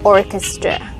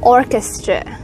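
First: The stress is on the first syllable. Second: The stress is on the first syllable.

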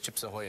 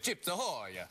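First: It is said in the speaker's plain voice. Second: It is said in a mock Italian accent.

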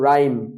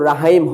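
First: No h sound follows the r. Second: An h sound follows the r. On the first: The speaker calls it right. "আর উচ্চারিত হবে কিন্তু এইচ উচ্চারিত হবে না" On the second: The speaker calls it wrong. "এখানে তো রাহাইম হয়নি"

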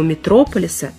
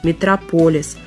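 First: The stress is on the second syllable. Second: The stress is on the third syllable. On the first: The speaker calls it wrong. "нет никакого «метрополиса»" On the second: The speaker calls it right. "есть «метрополис»"

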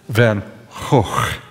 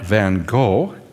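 First: The name is said with a Dutch pronunciation. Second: The name is said with an American pronunciation. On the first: The speaker calls it right. "The G is pronounced in the Netherlands as a rough H" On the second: The speaker calls it wrong. "that's English, not American English"

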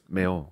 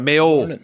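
First: The final O is quiet and reduced. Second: The final O is full and prominent. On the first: The speaker calls it right. "It's a quiet O at the end" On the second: The speaker calls it wrong. "It's not a Mayo"

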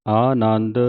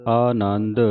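Both takes have the same delivery.

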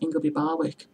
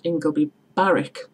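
First: The W is pronounced as a separate sound. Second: The W is silent, like a double R. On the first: The speaker calls it wrong. "loads of people pronounce it" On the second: The speaker calls it right. "the place in Stockton is called Ingleby Barwick"

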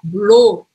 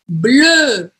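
First: The vowel is a Portuguese 'o' sound. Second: The vowel is the closed, rounded French 'eu'. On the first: The speaker calls it wrong. "se eu fizesse o em português, seria blô" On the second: The speaker calls it right. "Então não tem som de U nenhum aí"

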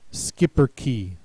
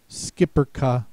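First: The word ends in an 'ee' vowel. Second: The word ends in an 'ah' vowel. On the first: "It is pronounced either E" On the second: "or A"

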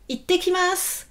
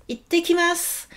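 No difference in how they are said.

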